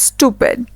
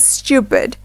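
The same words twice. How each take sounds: First: "stupid" as stoo-pid, no Y sound; American long U in "stupid"; American pronunciation. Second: "stupid" as styoo-pid, with a Y glide; British Y-glide in "stupid"; British pronunciation. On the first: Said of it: "in American English". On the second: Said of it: "while in British English". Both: Shown as a demonstration.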